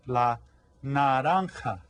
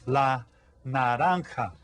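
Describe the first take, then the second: First: "naranja" with a tapped Spanish r; model word. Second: "naranja" again, steady and clear; repeat model. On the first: Teacher naming the orange for kids to repeat. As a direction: say "naranja" clearly, na-RAN-ha. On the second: Teacher repeating la naranja for kids to echo. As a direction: say "La naranja" once more for them to echo. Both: Shown as a demonstration. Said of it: "the fruit is".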